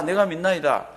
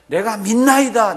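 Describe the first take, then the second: First: Said in the usual way. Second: Loud, high, slow retold declaration; crying out. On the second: Father declaring his belief to Jesus, loud outcry. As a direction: cry it out with raised pitch and volume. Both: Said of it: "그렇게 얘기를 했습니다".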